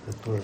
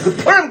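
First: It is said in a normal, quiet voice. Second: It is screamed loudly and with high energy.

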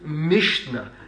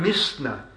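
First: The middle consonant is an sh sound. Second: The middle consonant is a plain s sound. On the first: The word is said in its intended form. "and meant Mishnah" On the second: The speaker cannot pronounce the sh sound. "let me quote it"

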